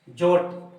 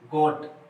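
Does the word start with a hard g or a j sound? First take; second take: j sound; hard g. First: The word starts with a j sound. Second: The word starts with a hard g sound. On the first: The speaker calls it wrong. "जी बराबर ज माना जाता, तो ये क्या होता?" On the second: The speaker calls it right. "ग पढ़ रहे हैं"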